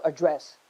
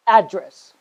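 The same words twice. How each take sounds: First: AdDRESS, stressed on the second syllable. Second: ADdress, stressed on the first syllable. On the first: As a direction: say "address" as the verb, weight on "dress". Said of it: "there is a word called address". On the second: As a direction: say "address" as the noun, punching "ad". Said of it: "stress on the first syllable". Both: Shown as a demonstration.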